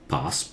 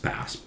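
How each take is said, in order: First: It is said in a British accent. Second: It is said in an American accent. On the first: "passes British" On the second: "passes American"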